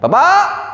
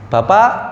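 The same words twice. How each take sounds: First: It is said in an irritated, unpleasant tone. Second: It is said in a plain, neutral tone.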